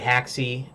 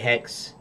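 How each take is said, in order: First: It has two syllables, ending in an ee sound. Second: It is one syllable with an e vowel. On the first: "So some say haxy like I do" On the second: "Some say hex"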